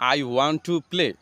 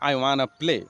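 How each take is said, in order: First: Want to is said in full as two words. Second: Want to is reduced to one word, wanna. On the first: The speaker calls it wrong. "এটি একটি slow English." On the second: The speaker calls it right. "want to এর পরিবর্তে ব্যবহার করব wanna"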